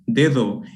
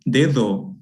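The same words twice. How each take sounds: First: The second d is a soft interdental fricative. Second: The second d is a soft interdental fricative.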